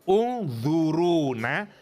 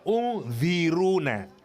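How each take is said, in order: First: The vowel after the z is a u sound. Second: The vowel after the z is an i sound. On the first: Look at us. "Bisa dibaca dhammah" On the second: Wait for us. "bisa dibaca kasrah"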